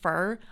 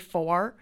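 First: The word sounds like fur, with a reduced vowel. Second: The word sounds like four, with a full vowel. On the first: This is the speaker's own way of saying it. "I say fur" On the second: This is how many other people say it. "A lot of people say for"

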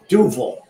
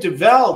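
First: The second-syllable vowel is weak and reduced. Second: The second-syllable vowel is clear and full. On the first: The speaker calls it right. "it's a lazy E" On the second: The speaker calls it wrong. "I would say Duvel"

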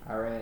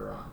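First: The name is pronounced the redneck way. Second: The name is pronounced the standard way. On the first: The speaker calls it wrong. "Iran is just some redneck shit" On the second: The speaker calls it right. "It's for sure Iran"

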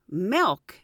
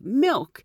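First: The vowel sounds like the e in bed. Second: The vowel sounds like the i in bit. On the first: This is the local Pittsburgh way of saying it. The speaker calls it wrong. "they say milk instead of milk" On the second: This is the usual way of saying it elsewhere. The speaker calls it right. "instead of milk"

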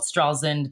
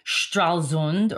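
First: It is said with an American pronunciation. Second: It is said with a German pronunciation.

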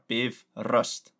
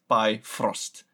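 First: The R sound is given clear emphasis. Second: The R sound is given no special emphasis. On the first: The speaker calls it right. "Just like the emphasis in, it's on the R" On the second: The speaker calls it wrong. "Not by Frost"

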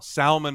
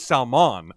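First: The stress is on the first syllable. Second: The stress is on the second syllable. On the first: This is the familiar way of saying the name. The speaker calls it wrong. "I always pronounce the L" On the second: This is how the name's owner says it. The speaker calls it right. "But I never knew it was Salmon"

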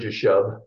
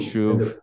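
First: It starts with a J sound and ends in b. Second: It starts with a Y sound and ends in v. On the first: This is the usual English reading of the name. "English readers usually pronounce it Shir Jashub" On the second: This is the original Hebrew form of the name. "it's Sha'ar. Yashuv"

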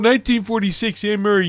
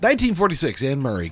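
First: It is said in a Canadian accent. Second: It is said in his plain accent.

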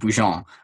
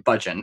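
First: The name is said with a French pronunciation. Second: The name is said with an English pronunciation. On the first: This is how the name is said in Quebec. "in Quebec, it is pronounced Bougeon" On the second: This is how the English-speaking family says it. "he's an Anglophone. So yeah, Budgeon"

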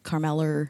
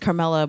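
First: The name ends with an added R sound. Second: The name ends in a plain vowel.

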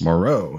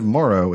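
First: The stress is on the second syllable. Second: The stress is on the first syllable. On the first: The speaker calls it right. "So the stress is on the second syllable" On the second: The speaker calls it wrong. "Instead of Moro"

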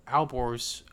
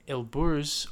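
First: The name begins with 'Al' and ends with 'borz'. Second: The name begins with 'El' and ends with 'burz'. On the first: "depending on the pronunciation" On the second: "depending on the pronunciation"

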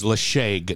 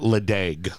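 First: The middle consonant is an sh sound. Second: The middle consonant is a d sound. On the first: The speaker calls it right. "L E D I A G is Lashag" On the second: The speaker calls it wrong. "not Ledeg"

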